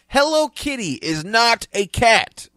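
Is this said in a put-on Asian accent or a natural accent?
natural. It is read in the speaker's natural accent.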